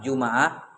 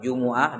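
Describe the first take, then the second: First: The m is followed by an a vowel. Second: The m is followed by a u vowel. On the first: "bisa di fathah" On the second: "di dhamma"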